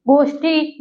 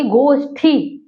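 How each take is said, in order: First: गोष्ठी with plain ट, as goshṭi; गोष्ठी ending in unaspirated टी; wrong form. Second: गोष्ठी with aspirated ठ, as goshṭhi; गोष्ठी ending in a clear ठी; correct form. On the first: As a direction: say गोष्ठी without the puff on the last syllable. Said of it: "गोष्ठी नहीं". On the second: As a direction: puff the last syllable of गोष्ठी. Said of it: "बल्कि गोष्ठी". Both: Shown as a demonstration.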